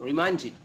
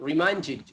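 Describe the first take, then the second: No difference in how they are said.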